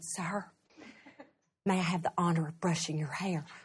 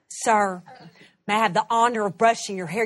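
First: It is said quietly. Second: It is said loudly.

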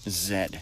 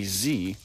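First: The letter is said the British way. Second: The letter is said the American way. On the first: "the last letter in the British or Canadian alphabet, which is Z" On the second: "calling the last letter in the American alphabet a Z"

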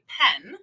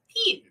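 First: It is said with a plain Canadian vowel. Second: It is said with a New Zealand vowel.

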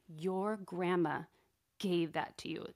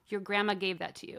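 First: It is said in a reproachful, guilt-laden tone. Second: It is said in a plain, neutral tone. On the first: You are ungrateful. "But the tone was like" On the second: Just stating a fact. "the words were fine"

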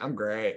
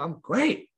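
First: It sounds insincere and perfunctory. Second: It sounds sincere and enthusiastic.

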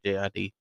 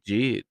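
First: The name is spelled out letter by letter. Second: The name is said as one word.

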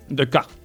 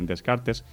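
First: The name is said with French pronunciation. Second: The name is said with Spanish pronunciation. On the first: The speaker calls it right. "porque como es francés, pues será Descartes" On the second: The speaker calls it wrong. "me ha dicho que no se dice así"

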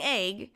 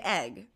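First: The vowel sounds like 'ay', as in Fonzie's 'ayy'. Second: The vowel sounds like the one in 'Ed'. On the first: "You're saying egg" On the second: "whereas I say egg"

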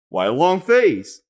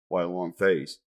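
First: The voice is lively with varied pitch. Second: The voice stays flat with no pitch change. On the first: The joke lands as funny. The speaker calls it right. "But when you're like" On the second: The joke falls flat. The speaker calls it wrong. "your voice stayed the same"

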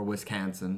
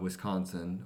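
First: It is said in an imitated local regional accent. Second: It is said in a neutral everyday accent.

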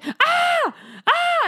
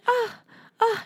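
First: It is yelled loudly. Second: It is a soft moan.

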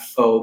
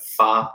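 First: The vowel sounds like 'oh'. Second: The vowel sounds like 'ah'. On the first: The speaker calls it wrong. "Not fo" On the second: The speaker calls it right. "but fa, like with an A"

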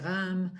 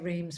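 First: The name is said the French way. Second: The name is said the English way.

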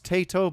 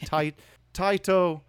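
First: The name is said with an anglicized pronunciation. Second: The name is said with a Japanese pronunciation. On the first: This is how some non-Japanese speakers say it. The speaker calls it wrong. "maybe some people pronounce this Taito" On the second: This is how Japanese speakers say it. The speaker calls it right. "but the Japanese would be Taito"

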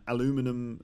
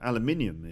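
First: The word is said with four syllables. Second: The word is said with five syllables.

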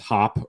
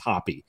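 First: The name is said as one syllable. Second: The name is said as two syllables. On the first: The speaker calls it wrong. "I'm not sure exactly how you pronounce it, if it's Hop or Hoppy" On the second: The speaker calls it right. "It's Hoppy"

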